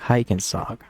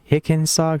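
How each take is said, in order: First: The first vowel is long, as in 'like'. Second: The first vowel is short, as in 'sick'. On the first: "Like like I'm going hiking" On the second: "You pronounce the I a certain way, and I pronounce it a different way"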